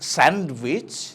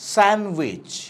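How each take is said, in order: First: The d sound is pronounced. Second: The d sound is left silent. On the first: The speaker calls it wrong. "Not স্যান্ডউইচ" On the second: The speaker calls it right. "ডিটা আনপ্রোনাউন্স থাকে"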